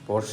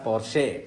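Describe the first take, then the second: First: The name ends in an 'ah' sound. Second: The name ends in an 'eh' sound. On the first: The speaker calls it wrong. "പോർഷ അല്ല" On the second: The speaker calls it right. "Correct പറയണമെന്നാണ് പറയുന്നത്"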